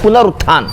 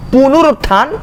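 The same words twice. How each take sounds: First: पुनरुत्थान with 'na' after pu; correct pronunciation. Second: पुनरुत्थान with 'nu' after pu; wrong pronunciation. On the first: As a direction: say पुनरुत्थान as pu-na-rut-thaan. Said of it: "उसको बोलते हैं". (पुनरुत्थान, सही 'न' के साथ) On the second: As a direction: say पुनरुत्थान as pu-nu-rut-thaan. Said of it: "ये गलत वर्ड है". (पुनरुत्थान, गलत 'नु' के साथ) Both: Shown as a demonstration.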